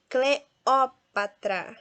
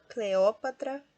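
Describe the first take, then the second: First: "Cleópatra" very slow, syllable by syllable, loud Ó; stress on Ó. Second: Said in the usual way. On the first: Shown as a demonstration. Teacher shows students the strong syllable, slow "Cleópatra" stressed on Ó. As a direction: break "Cleópatra" apart and punch the "ó". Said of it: "é a sílaba mais forte". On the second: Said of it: "Então, proparoxítona nós temos".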